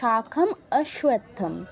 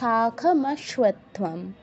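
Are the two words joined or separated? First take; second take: separated; joined. First: The two words are said separately. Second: The two words are run together. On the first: The speaker calls it wrong. "যদি আমাদের সন্ধি ভাঙতে হয় তখন হতো" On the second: The speaker calls it right. "কিন্তু আমরা একসাথে বলবো"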